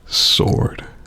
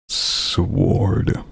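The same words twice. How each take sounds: First: The word is said with a silent W. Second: The word is said with a pronounced W. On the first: The speaker calls it right. "That's how normal normal people say it" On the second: The speaker calls it wrong. "I put too much too much punctuation on the W"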